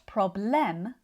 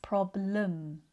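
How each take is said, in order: First: The second syllable has a full E vowel. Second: The second syllable has a weak uh vowel. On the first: The speaker calls it wrong. "the first error is when students pronounce all of the letters. Problem. So it's not problem" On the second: The speaker calls it right. "it's problem. Lum"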